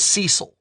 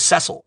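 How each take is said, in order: First: Cecil said SEE-sil, long ee first; wrong Cecil. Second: Cecil said SESS-il, short e first; right Cecil. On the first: Retelling his own old mistake, Cecil as SEE-sil. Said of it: "put the wrong emphasis on the wrong syllable". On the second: Correcting himself to the real name, Cecil as SESS-il. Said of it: "when I heard it pronounced". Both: Shown as a demonstration.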